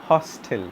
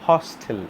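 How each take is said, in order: The two takes are said the same way.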